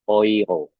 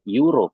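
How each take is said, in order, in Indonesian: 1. Kata ini dimulai dengan bunyi 'oi'. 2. Kata ini dimulai dengan bunyi 'e-u'. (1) "tetapi euro" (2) "bukan euro"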